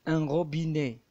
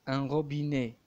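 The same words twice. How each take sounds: No difference in how they are said.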